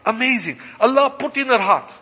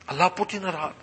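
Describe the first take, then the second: First: Higher-pitched exclamation of wonder; emphatic marvelling. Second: Softer, reflective echo; hushed repeat. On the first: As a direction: proclaim it with amazement, pitched up. Marvelling, then repeats it subdued. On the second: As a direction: let it sink in, softly. Subdued repeat after exclaiming. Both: Real, not acted.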